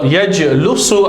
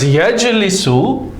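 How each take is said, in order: First: The middle syllable has the vowel u. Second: The middle syllable has the vowel i. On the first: The speaker calls it wrong. "sound strange" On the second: The speaker calls it right. "there's no difficulty in pronunciation, so it's correct"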